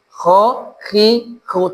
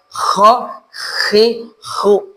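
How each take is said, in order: First: The kh sound is a plain, light friction. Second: The kh sound is a heavy, snoring rasp. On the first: The speaker calls it right. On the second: The speaker calls it wrong.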